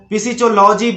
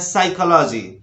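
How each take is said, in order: First: The word starts with a p sound. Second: The word starts with an s sound. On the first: The speaker calls it wrong. "इसको फिजियोलॉजी बोलना बिल्कुल गलत है" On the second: The speaker calls it right. "इसको बोलना है साइकोलॉजी"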